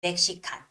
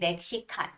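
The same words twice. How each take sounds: Both takes have the same delivery.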